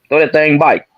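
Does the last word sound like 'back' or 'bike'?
bike. The last word has an 'ai' vowel, like 'bike'. "I'm bike instead of saying you back"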